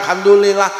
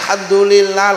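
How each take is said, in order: The two takes are said the same way.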